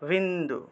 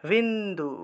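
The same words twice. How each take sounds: The two takes are said the same way.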